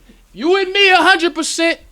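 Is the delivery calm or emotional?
calm. It is said calmly and evenly.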